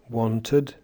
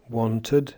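First: The unstressed vowel is a schwa. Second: The same.

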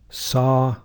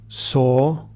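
First: It is said in an American accent. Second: It is said in a British RP accent.

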